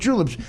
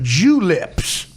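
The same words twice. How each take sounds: First: The word is said smoothly as one word. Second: The word is split into two separate parts. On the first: "He said mint juleps" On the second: "He didn't make it one word. He made it two"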